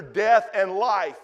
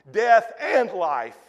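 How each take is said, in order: First: Slow, weight on "Death" and let it fall; "Death" pressed, "and life" eased down; stress on death. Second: Slow, lean on "and" between "death" and "life"; "death AND life", the joining word hit; stress on and. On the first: Preacher reading the verse aloud, slow stress on "Death". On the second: Preacher repeating the verse to the room, slow stress on "and". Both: Shown as a demonstration.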